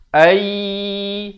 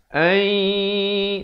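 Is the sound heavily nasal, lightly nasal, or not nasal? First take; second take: not nasal; lightly nasal. First: The sound has no nasal resonance at all. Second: The sound has a light, pleasant nasal resonance. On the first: The speaker calls it wrong. "dengung tak ada" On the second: The speaker calls it right. "dia sampai ke hidung itu bunyinya itu"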